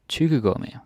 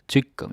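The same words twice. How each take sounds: First: The word is said at a normal, careful pace. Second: The word is said quickly and run together.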